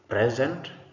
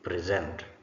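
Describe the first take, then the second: First: The stress follows the noun pattern. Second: The stress follows the verb pattern. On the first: The word is used as a noun. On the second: The word is used as a verb.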